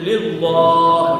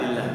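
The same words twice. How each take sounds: First: The L sound is heavy and thick. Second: The L sound is light and thin. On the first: The speaker calls it wrong. "lillah dibaca dhamma, dia lillah gitu ya" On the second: The speaker calls it right. "Seharusnya kan tarkik ya"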